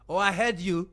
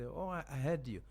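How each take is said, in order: First: The voice is sharp and harsh. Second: The voice is soft and gentle. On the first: The listener feels attacked, as in a fight. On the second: The listener feels heard and calm.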